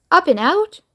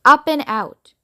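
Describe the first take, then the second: First: Rising, puzzled "Up and out?"; a higher, questioning "Up and out?". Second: Said in the usual way. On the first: Acted. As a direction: Charlie wondering aloud at "Up and out?". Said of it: "thought Charlie". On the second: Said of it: "It said".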